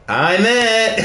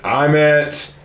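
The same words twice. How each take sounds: First: It is said in a casual, playful way. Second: It is said in a plain, matter-of-fact way.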